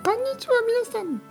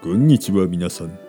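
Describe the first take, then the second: First: It is said in an unnaturally high voice. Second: It is said in an unnaturally low voice.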